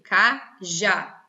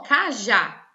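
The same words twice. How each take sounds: First: "Cajá" split in two, stressing the final "já"; slow, divided "Cajá" with a strong last syllable. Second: Said in the usual way. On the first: Shown as a demonstration. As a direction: break "Cajá" into syllables, landing on "já". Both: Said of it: "Sílaba tônica é a última".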